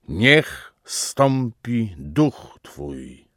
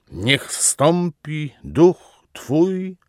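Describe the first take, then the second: First: Very slow invocation with long pauses, sinking at the end; measured, drawn-out papal plea; solemn invocation. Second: Higher, very slow invocation, word by word; rising, drawn-out papal cry; intensified invocation. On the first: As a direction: space out each word of the prayer. Pope's invocation, first take. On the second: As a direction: lift the voice on each word of the prayer. Pope's invocation repeated with more force. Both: A narrator's reading.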